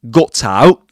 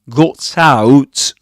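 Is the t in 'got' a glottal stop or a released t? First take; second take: glottal stop; released t. First: The t in got is a glottal stop. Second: The t in got is fully released. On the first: "he says" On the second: "He doesn't say"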